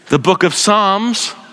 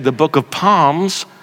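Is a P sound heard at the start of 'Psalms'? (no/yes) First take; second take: no; yes. First: The word begins with an S sound. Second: The word begins with a P sound. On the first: The speaker calls it right. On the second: The speaker calls it wrong.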